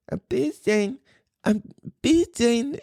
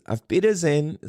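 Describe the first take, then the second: First: Put-on high-pitched little-kid voice with a cute accent; tiny, high imitation of a small child; toddler saying German goodbye. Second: Said in the usual way. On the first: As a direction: squeak it out like a three-year-old trying German. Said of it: "and he says ... he's got the little accent". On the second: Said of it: "how you say bye is".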